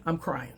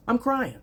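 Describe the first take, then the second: First: Said in the usual way. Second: "I'm crying" jumped up high; high mock-wailing "I'm crying"; emphatic repeat. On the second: Repeats crying remark, second emphatic.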